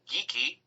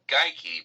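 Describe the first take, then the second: First: The first vowel sounds like 'ee'. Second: The first vowel sounds like 'eye'. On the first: This is the Scottish pronunciation. "the Scots do say geeky" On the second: This is the German or Polish reading. "would indeed be Geike, because the second of the two vowels carries the day"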